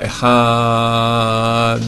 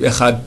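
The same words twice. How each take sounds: First: The a is lengthened and ends in a clear d. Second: The word ends with a t sound. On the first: The speaker calls it right. "on rallonge dans le A" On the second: The speaker calls it wrong. "avec un taf"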